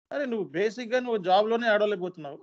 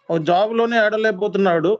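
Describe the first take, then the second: First: Said in the usual way. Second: Louder repeat. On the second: Real, not acted. Trainer scolding students, loud exasperated retake. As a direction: hammer the point home with a louder retake.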